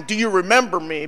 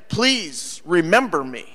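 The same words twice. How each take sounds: First: "Do you remember me?" as an ordinary question; asking. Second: Slow "Please remember me" with weight on PLEASE; pleading. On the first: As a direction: ask "Do you remember me?" at a normal pace. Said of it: "we're not asking". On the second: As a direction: draw out "Please" as a mild plea. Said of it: "When we are pleading". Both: Shown as a demonstration.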